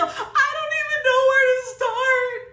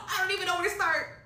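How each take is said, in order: First: High, loud, drawn-out wail; despairing wail. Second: Slightly raised helpless voice at normal volume; subdued helplessness. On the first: Client stuck with glue in her ponytail, despairing wail. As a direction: wail it slowly in helpless frustration. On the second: Client stuck with glue in her hair, subdued helplessness. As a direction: say it helplessly, reined in after a wail. Repeats it after the outburst. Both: Real, not acted.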